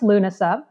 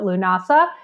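First: The word is said the original Irish way. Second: The word is said the common American way. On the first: The speaker calls it right. "It's actually pronounced Lúnasa" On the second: The speaker calls it wrong. "I've heard people mispronounce it. They called it Lúnasa"

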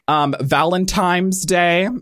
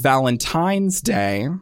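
First: Valentine's is said with an m sound. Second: Valentine's is said with an n sound. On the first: The speaker calls it wrong. "With an M" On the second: The speaker calls it right. "instead of an N"

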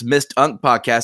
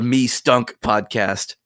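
First: The s sound ends the first syllable. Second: The s sound starts the second syllable. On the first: It abbreviates the show's full name. "it's Mist Unk Podcast" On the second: It makes a joke that someone smelled bad. "you can read it as the Me Stunk Podcast"

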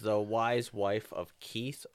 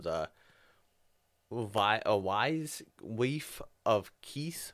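First: It is said in a plain, non-Scottish accent. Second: It is said in a Scottish accent.

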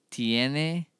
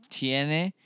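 The two takes are said the same way.

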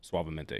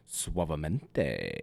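First: It is said plainly, in a normal voice. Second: It is said with sultry, dramatic flair.

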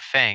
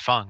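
First: The vowel sounds like the 'a' in 'fang'. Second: The vowel sounds like the 'u' in 'fung'. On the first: The speaker calls it wrong. "Fang is not Fang" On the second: The speaker calls it right. "It's Fung, right?"

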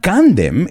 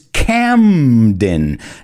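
First: The n sound comes before the m sound. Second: The m sound comes before the n sound. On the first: The speaker calls it wrong. "But it's not Candem" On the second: The speaker calls it right. "it's Camden. La M viene antes que la N"

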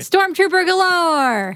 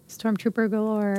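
First: It is said excitedly, like an exclamation. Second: It is said flatly, without excitement.

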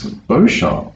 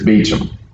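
First: The name is not pronounced like Beecham. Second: The name is pronounced like Beecham. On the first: This is how people outside the county say it. The speaker calls it wrong. "it's not Beauchamp around here" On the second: This is how locals in the county say it. The speaker calls it right. "It's Beecham"

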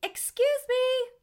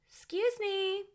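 First: It is said at a louder volume. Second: It is said at a quieter volume.

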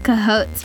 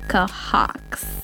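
First: The name ends with a 'hotes' sound. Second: The name ends with a 'hawks' sound. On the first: This is how the hosts usually say the name. The speaker calls it wrong. "We always pronounce as Cahotes" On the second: This is how the name's owner says it. The speaker calls it right. "but he said Cahawks"

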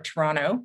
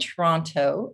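First: It is pronounced the way Canadians say it. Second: It is pronounced the way non-Canadians say it.

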